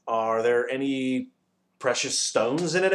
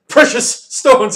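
First: Excited question. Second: Huge, high, drawn-out roar. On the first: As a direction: ask with eager curiosity. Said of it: "asked Milo excitedly". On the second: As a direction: roar it in outrage, stretching each word. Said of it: "he roared, even louder than before". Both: A narrator's reading.

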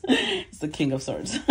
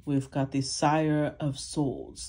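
First: Said in the usual way. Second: Slow, hammed-up English accent; mock English accent. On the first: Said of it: "The Sire always makes me do my English accent". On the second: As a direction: put on a jokey English accent for the card name. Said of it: "makes me do my English accent".

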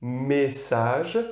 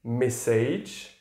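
First: "message" said the French way, me-SAZH, no final E sounded; French "message" with a rising end; French pronunciation. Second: "message" said the English way, MESS-idge, no final E sounded; English "message", A changed, final E silent; English pronunciation. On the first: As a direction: dis "message" à la française. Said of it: "quand vous prononcez le mot". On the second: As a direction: dis "message" à l'anglaise. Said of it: "Si vous le prononcez en anglais". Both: Shown as a demonstration.

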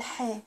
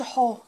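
First: حا said short and crisp; correct short ha. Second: حا stretched the wrong way; wrong long a. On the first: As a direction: keep the ha brief. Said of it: "أقول حا". (نطق صحيح لـ حا) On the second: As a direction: drag the ha sound. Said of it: "وما أقولش حا". (نطق خاطئ لـ حا) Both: Shown as a demonstration.

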